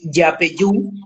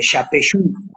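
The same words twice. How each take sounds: First: The y sound is soft, like a glide. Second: The y sound is hard, almost like sh. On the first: "a pasar a decir Yapeyú" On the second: "La Y acá es como muy dura"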